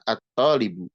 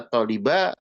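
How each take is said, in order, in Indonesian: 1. Kata itu diakhiri dengan vokal u. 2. Kata itu diakhiri dengan vokal a. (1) "tapi dibacanya adalah at-talibu" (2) "Tidak dibaca at-taliba"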